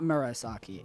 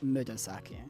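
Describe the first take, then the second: First: The second consonant is an R sound. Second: The second consonant is a D sound. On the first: The speaker calls it wrong. "It is not Murasaki" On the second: The speaker calls it right. "It is Mudasaki"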